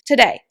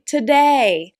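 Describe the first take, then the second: First: The word is said quickly and short. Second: The word is said slowly with a lengthened second syllable. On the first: The speaker calls it wrong. "rush through the word today" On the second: The speaker calls it right. "when I really slow down and exaggerate that word"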